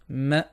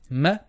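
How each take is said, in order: First: The m syllable sounds light and flat. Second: The same.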